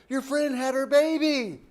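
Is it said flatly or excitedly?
excitedly. It is said excitedly, as good news.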